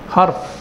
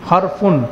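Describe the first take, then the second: First: The word ends on the bare final consonant. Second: The word ends with an added -un sound. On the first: "জের জবর ছাড়াই" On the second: "ফার উপর কি তানবিন"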